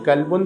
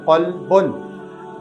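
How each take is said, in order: First: The first sound is a plain front k. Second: The first sound is a deep back q. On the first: It means dog. The speaker calls it wrong. "डंडी वाले काफ़ की तरह" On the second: It means heart. The speaker calls it right. "ये मोटे नुक्ते वाले क़ाफ़ का क़ल्ब है"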